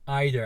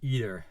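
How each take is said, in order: First: It uses the British pronunciation of the word. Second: It uses a non-British pronunciation of the word. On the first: "You like to say either" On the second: "and not either"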